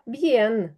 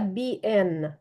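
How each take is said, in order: First: The vowels glide together into one syllable. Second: The vowels are split into two syllables. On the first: The speaker calls it right. "сказала б'єн" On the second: The speaker calls it wrong. "я не сказала біен"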